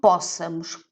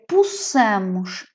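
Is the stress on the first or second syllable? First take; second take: first; second. First: The stress is on the first syllable. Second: The stress is on the second syllable. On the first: The speaker calls it wrong. "e não possamos. Porque se fosse possamos, eu teria de ter o acento" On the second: The speaker calls it right. "é possamos"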